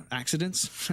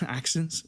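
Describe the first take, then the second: First: "Accidents?" as a puzzled misreading, rising; misread word. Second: "Accents?" with a laugh, fixing the misread; corrected word. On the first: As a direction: read "Accidents?" as the wrong word, questioning. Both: Real, not acted.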